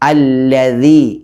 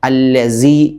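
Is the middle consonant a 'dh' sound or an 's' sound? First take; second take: dh; s. First: The middle consonant is a 'dh' sound with the tongue on the teeth. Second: The middle consonant is a hissing 's' sound. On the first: The speaker calls it right. "അല്ലദീ ഇങ്ങനെ ഓതുക" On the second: The speaker calls it wrong. "പല ആളുകളും സ എന്നാണ് ഉച്ചരിക്കാറുള്ളത്"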